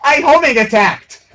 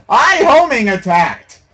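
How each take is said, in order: First: High, loud yell at the game; frustrated shout. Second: Slower indignant shout. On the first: Gamer yelling at the screen after a failed homing attack, frustrated shout. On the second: Gamer repeating the failed homing attack at the screen, slow outraged shout. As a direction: stretch it out, still loud and high. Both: Real, not acted.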